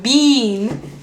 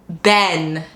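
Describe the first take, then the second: First: The vowel sounds like the one in see. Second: The vowel sounds like the one in set. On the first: "how you bean is is C" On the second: "then set ben"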